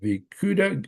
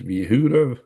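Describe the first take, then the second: First: The middle consonant is a hard G sound. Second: The middle consonant is an H sound. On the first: "I don't know how you pronounce that" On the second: "Probably G probably sounds like H"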